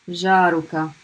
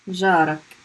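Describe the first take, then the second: First: The word has three syllables with a final vowel. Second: The word has two syllables without a final vowel. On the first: It is formal standard Arabic. "You want to be super fusha?" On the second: It sounds more like everyday dialect. "a little bit more like dialect, a little bit easier pronunciation"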